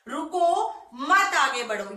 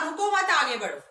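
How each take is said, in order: First: The pause comes after the word 'ruko'. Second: The pause comes after the word 'mat'.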